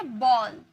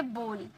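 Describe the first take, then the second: First: "बॉल" drawn out with open aw; BALL vowel. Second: "बोल" with a closed, rounded oh; softer "बोल", lips rounded on the o; BOWL vowel. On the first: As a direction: slowly model "बॉल" with an open o. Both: Shown as a demonstration. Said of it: "ये दोनों में क्या फर्क है?".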